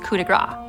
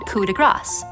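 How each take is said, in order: First: The final consonant of grace is dropped. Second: The final s sound of grace is pronounced. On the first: It means stroke of fat. The speaker calls it wrong. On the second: It means stroke of grace. The speaker calls it right.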